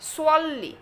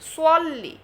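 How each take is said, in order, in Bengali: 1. প্রথম s ধ্বনিটি মোটা ও ভারী। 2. প্রথম s ধ্বনিটি মোটা ও ভারী।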